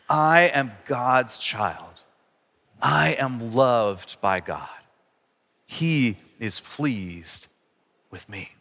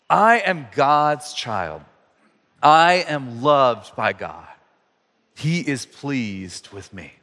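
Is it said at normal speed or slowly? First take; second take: slowly; normal speed. First: It is said more slowly. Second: It is said at a normal pace.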